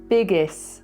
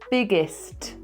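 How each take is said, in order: First: The final s-t cluster is not fully pronounced. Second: Both the s and t sounds are clearly pronounced. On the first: The speaker calls it wrong. "Almost correct" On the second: The speaker calls it right. "the S T has two sounds"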